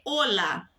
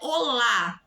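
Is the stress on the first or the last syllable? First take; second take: first; last. First: The stress is on the first syllable. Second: The stress is on the last syllable. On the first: The speaker calls it right. "a penúltima sílaba, se você preferir pensar assim, que é a tônica" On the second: The speaker calls it wrong. "não é olá"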